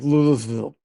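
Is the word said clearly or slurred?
slurred. The word is said in a slurred, drunken way. "or I'd be like Louisville. Uh, Probably that. Probably the second one"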